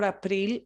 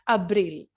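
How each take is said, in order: First: The second consonant is a P sound. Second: The second consonant is a B sound. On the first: The speaker calls it wrong. "we don't say ap April or April, it's not a P" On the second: The speaker calls it right. "it's a B, okay, a B"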